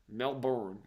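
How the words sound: It is said with an American accent.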